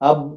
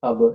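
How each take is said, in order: First: The final b is closed with no echo. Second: The final b is released with a bouncing echo. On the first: The speaker calls it wrong. "അബ് എന്ന് പറഞ്ഞാൽ പോരാ" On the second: The speaker calls it right. "കൽകല അബ്"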